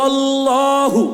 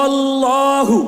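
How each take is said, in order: Both takes have the same delivery.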